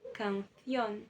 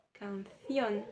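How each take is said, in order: The two takes are said the same way.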